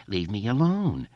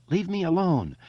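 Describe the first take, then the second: First: Whiny mock plea, rising then dropping; mock-terrified imitation; mocking mimicry. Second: High, frightened plea; small trembling cry, pitched way up. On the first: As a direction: parrot his plea to jeer at him. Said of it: "Henry mimicked". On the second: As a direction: plead like a scared boy. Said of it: "Eddie said in a trembling voice". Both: A narrator's reading.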